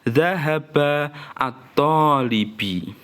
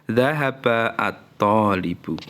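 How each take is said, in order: First: The last word ends in an i vowel. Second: The last word ends in a u vowel. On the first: The speaker calls it wrong. "nggak boleh kamu baca" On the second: The speaker calls it right. "Yang benar apa?"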